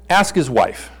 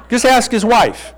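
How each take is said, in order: First: Said in the usual way. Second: "ask" punched higher and slower; "Just ask his wife" drawn out, pitch up on "ask"; stress on ask. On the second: Shown as a demonstration. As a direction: lean hard on "ask", slowly.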